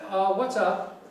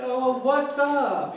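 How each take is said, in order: First: It sounds casual and relaxed. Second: It sounds forced and exaggerated.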